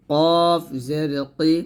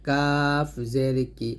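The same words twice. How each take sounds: First: কফ জের কি, long with heavy back k; thick qof. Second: কাফ জের কি, drawn out with light k; thin kaf. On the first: Teacher repeats for learners, heavy কফ. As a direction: stretch a thick, rounded কফ. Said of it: "কফটা মোটা করে". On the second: Teacher repeats the light letter, thin কাফ. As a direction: keep a long কাফ thin. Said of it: "কাফটা পাতলা করে". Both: Shown as a demonstration.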